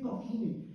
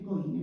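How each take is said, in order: First: The middle throaty j sound is clearly pronounced. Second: The middle throaty j sound is left out. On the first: It is the correct, standard form. The speaker calls it right. "se dice cojines" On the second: It is an uneducated, vulgar form. The speaker calls it wrong. "coines no se dice"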